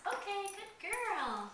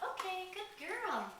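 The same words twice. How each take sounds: First: Much higher, slow, sing-song praise; lavish praise on the puppy, drawn out; excited dog praise. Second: Excited dog praise. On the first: Shown as a demonstration. Trainer praising puppy for ringing the bell, high slow praise. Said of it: "and when she does". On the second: Real, not acted. Praising puppy at potty spot.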